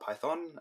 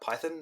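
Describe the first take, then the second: First: Python is pronounced the American way. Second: Python is pronounced the British way. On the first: This is how another country says it. "not Python" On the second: This is how the speaker's own country says it. "a country that also says uh, Python"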